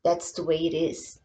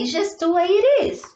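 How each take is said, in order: First: Said in the usual way. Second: Higher and a little fast, sing-song; playful high repeat. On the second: Shown as a demonstration. Teacher to children, echoing herself higher and playful. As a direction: bounce it back up high and quick.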